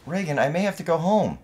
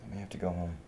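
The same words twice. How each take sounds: First: Loud, high-pitched protest; upset insistence. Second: Softly, tentatively broken news; subdued admission. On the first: Worried son insisting to his partner, upset and loud. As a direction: push it hard at a resisting partner. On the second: Worried son breaking news to his partner, subdued. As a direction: float it quietly, well under normal volume. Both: Acted.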